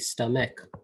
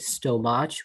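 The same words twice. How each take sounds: First: The middle sound is a 'k' sound. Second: The middle sound is a 'ch' sound. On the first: The speaker calls it right. "we say stomach" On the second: The speaker calls it wrong. "we don't say stomach"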